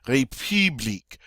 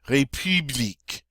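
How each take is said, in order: The two takes are said the same way.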